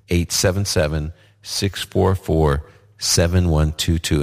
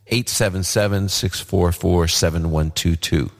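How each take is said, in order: First: The number is said slowly. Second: The number is said at a normal pace.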